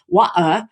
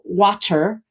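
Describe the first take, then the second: First: The T is a Cockney-style glottal stop. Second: The T is a tongue tap on the ridge.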